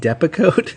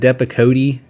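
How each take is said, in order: First: The final e is silent. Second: The final e is sounded as a syllable. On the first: The speaker calls it right. "so it's pronounced Depakote" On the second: The speaker calls it wrong. "It's not pronounced Depakote. ... I thought you pronounced the E"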